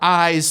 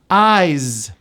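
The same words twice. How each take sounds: First: The final sound merges into a following s. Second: The word ends with a voiced z sound. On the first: "The two S's become just one sound" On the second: "the last sound is a voiced Z"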